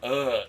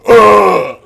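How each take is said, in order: First: It is said plainly and quietly. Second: It is bellowed loudly, like an echo.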